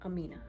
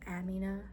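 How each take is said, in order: First: The name is said with an anglicized pronunciation. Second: The name is said with its original pronunciation. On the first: The speaker calls it wrong. "not Amina" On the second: The speaker calls it right. "It's Amina"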